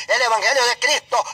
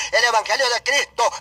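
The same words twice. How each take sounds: The two takes are said the same way.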